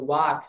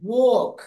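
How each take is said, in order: First: Low ওয়াক as "waak", open "ah"; first-taught wak form. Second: ওয়াক as "wawk", rounded vowel; real aw pronunciation. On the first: Teacher recalls what was said at first, ওয়াক as low "waak". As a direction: say ওয়াক lower, with a plain "ah". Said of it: "প্রথমবার আমরা কিন্তু কি বলছিলাম". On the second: Teacher gives the real pronunciation, ওয়াক as rounded "wawk". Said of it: "এটা হালকা অ হবে". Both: Shown as a demonstration.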